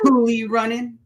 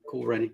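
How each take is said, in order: First: The first word has two syllables, ending in ee. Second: The first word has one syllable, with silent e. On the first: The speaker calls it wrong. "I was just joking" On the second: The speaker calls it right. "The the e is silent"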